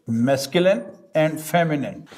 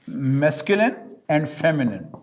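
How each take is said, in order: Both takes have the same delivery.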